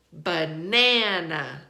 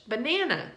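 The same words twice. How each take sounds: First: Slow "banana", long punched middle NA; second-syllable stress. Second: Said in the usual way. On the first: Shown as a demonstration. Teacher repeating the stress pattern, slow ba-NA-na for "banana". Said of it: "We stress the second syllable". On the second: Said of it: "how we say that word".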